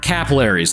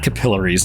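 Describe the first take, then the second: First: The word is said with an American pronunciation. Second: The word is said with a British pronunciation. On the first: The speaker calls it right. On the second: The speaker calls it wrong. "I had a British uh, professor"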